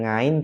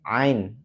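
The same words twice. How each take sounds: First: "ngain" with a nasal ng at the start; wrong NG onset. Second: "ain" opened in mid-throat, without any ng; correct ain onset. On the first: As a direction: mispronounce ain as "ngain", opening on ng. (pelafalan salah "ngain", diawali bunyi ng) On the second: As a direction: start "ain" from the middle of the throat. ("ain" dari tenggorokan tengah, tanpa bunyi ng) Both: Shown as a demonstration. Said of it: "bukan ngain, tetapi ain".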